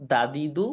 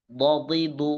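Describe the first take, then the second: First: Said in the usual way. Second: "বদিদু" with every d heavy and thick, do-di-du; দদ উচ্চারণ. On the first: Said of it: "আমি আগে দাল উচ্চারণ করবো". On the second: Shown as a demonstration. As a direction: hold each syllable of "বদিদু" fuller and heavier. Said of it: "এরপর দদ উচ্চারণ করবো". ("বদিদু" মোটা দদে, টেনে)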